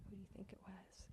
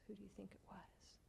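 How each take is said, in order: First: Gentle voiced question, still hushed; quiet spoken repeat of the tease; soft voiced repeat. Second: Put-on fast, hushed question to the children; softer and quicker whispered tease; teasing whisper.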